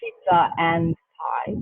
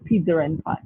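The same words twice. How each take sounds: First: The words link with no R sound inserted. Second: An extra R sound links pizza and and. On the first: "instead of saying pizza and pie" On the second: "they will say pizza and pie"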